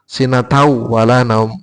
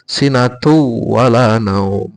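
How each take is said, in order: First: The mouth opens wide before the next word. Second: The first word flows straight into the next. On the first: The speaker calls it wrong. "Nek sinatau kan dadak mangap barang" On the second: The speaker calls it right. "Nek sinatu kan langsung nyambung"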